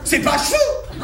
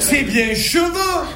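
First: Cheveux said chveux, the E swallowed, higher; mock Parisian swallowing the E in cheveux; Parisian pronunciation. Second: Cheveux with the E fully sounded, slow; Marseille pronunciation. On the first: Marseille comedian mocking Parisians who drop the E. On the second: Marseille comedian correcting Parisians, pronouncing the E fully. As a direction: say cheveux as che-veux, every vowel clear. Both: Shown as a demonstration. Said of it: "Il y a bien un E entre le H et le V".

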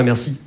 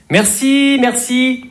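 First: Said in the usual way. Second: High, sugary thank-you; fake polite thanks. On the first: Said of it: "j'entends pas". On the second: Shown as a demonstration. Comedian mimicking an annoyed thank-you, high and sugary. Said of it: "quand on dit".

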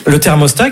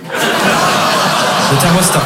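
First: Said in the usual way. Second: Thermostat stretched out slowly, breathy; slow breathy drawl. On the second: Pretend. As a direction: drag the word out, half whispered. Teacher repeats, drawn out.

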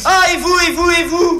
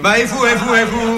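First: Very high, loud comic squabble; quarrelling retort. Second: High-pitched comic squabble; quarrelling retort. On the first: Accused partner throwing it back, high quarrelling shout. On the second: Accused partner returning the charge, high quarrelling retort. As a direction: throw it back high, insistently. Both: Acted.

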